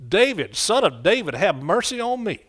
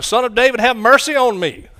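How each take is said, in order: First: Hollering out. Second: A much louder, higher desperate cry. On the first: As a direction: cry out for mercy to someone passing by. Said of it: "hollering out". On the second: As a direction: shout it over the people hushing you. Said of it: "He cried out all the more louder". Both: Retold or imitated.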